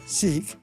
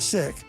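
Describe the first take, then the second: First: The word is said the British way. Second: The word is said the non-British way.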